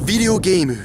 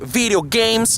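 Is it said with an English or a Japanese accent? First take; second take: Japanese; English. First: It is said with a Japanese-style pronunciation. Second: It is said with a normal English pronunciation. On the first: Japanese listeners will understand it. The speaker calls it right. "Il faut prononcer à la, à la japonaise" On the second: Japanese listeners will not understand it. The speaker calls it wrong. "au lieu de dire video, video games"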